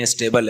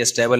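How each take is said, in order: First: اسٹیبل said "i-stay-bl", with a long ay; corrected pronunciation. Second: اسٹیبل said "i-stabble", with a short a; wrong vowel. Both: Shown as a demonstration. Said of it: "یہ اسٹیبل نہیں ہے، اسٹیبل ہے".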